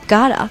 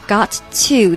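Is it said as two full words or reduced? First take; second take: reduced; full. First: The words blend into one reduced word. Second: Both words are said fully and separately. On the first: "口语性缩略gotta" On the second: "got to"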